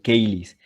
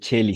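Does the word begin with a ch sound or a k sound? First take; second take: k sound; ch sound. First: The word begins with a k sound. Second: The word begins with a ch sound. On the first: The speaker calls it right. "sino caelis" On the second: The speaker calls it wrong. "No se dice cheli"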